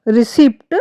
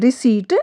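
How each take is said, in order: First: रिसिप्ट with the p sounded; wrong pronunciation. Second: रिसीट with no p; silent p. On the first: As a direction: pronounce the p in रिसिप्ट. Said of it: "wrong है". (गलत उच्चारण रिसिप्ट, पी के साथ) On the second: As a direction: say रिसीट, drop the p. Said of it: "right है क्योंकि इसमें पी ... silent". (सही उच्चारण रिसीट, पी silent) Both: Shown as a demonstration.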